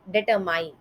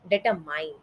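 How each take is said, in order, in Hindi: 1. अंतिम अक्षर 'mine' जैसा सुनाई देता है। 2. अंतिम अक्षर 'mine' जैसा सुनाई देता है।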